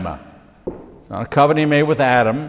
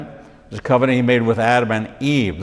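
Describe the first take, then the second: First: Adam lifted in a questioning rise; the mistaken version, said with a rise; wrong version, rising. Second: Adam and Eve settled with a firm fall; the right version, said with a fall; correct version, falling. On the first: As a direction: tilt up on Adam as if doubting it. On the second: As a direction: land firmly down on Adam and Eve. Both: Shown as a demonstration.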